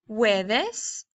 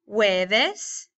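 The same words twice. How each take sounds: No difference in how they are said.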